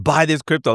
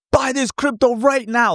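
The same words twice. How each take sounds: First: Said in the usual way. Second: Much higher pushy shill pitch; hype influencer. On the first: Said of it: "When people are like". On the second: Retold or imitated. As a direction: oversell it like a hype account. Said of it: "I'll never be like".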